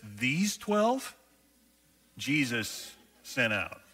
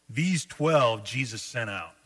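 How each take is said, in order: First: It is read with amazed, incredulous emphasis. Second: It is read in a plain, neutral way.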